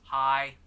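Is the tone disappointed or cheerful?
disappointed. It sounds flat and disappointed.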